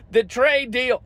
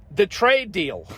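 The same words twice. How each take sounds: First: Higher, sarcastic repeat of the phrase; mocking echo. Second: Said in the usual way. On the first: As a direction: sneer it back like a slogan. Repeats phrase, then mocks it.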